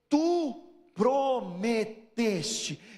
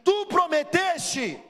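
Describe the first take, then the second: First: It is said in a plain reading tone. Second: It is said in an indignant, reproachful tone.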